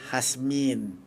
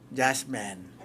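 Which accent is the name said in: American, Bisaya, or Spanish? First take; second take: Spanish; Bisaya. First: The name is said in a Spanish accent. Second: The name is said in a Bisaya accent. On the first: "yun ang pronunciation ng Kastila" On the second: "pagka Bisaya"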